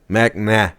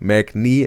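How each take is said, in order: First: The last vowel sounds like ah. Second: The last vowel sounds like ee. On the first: The speaker calls it right. "Mac nah, not nay" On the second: The speaker calls it wrong. "Mac knee wrong"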